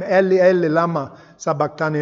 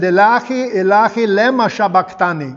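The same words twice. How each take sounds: First: 'Eli, Eli, lama sabachthani' said the Aramaic way, Eli as EH-lee, lama as LAH-ma; Aramaic pronunciation. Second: 'Ilahi, Ilahi, lema sabachthani' said the Arabic way, Ilahi as ee-LAH-hee, lema as LEH-ma; Arabic pronunciation. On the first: Shown as a demonstration. The preacher comparing it with the Arabic, in Aramaic pronunciation. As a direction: set 'Eli' and 'lama' against the Arabic forms. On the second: Retold or imitated. The Lebanese translator quoting the cry, in Arabic pronunciation. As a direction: give 'Ilahi' and 'lema' the Arabic vowels of the translator.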